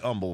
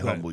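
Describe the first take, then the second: First: The word starts without an H sound. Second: The word starts with an audible H sound. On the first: This is the name of the Texas town. "you don't pronounce the H" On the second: This is the ordinary English word. "if you were saying the word humble, you would say humble"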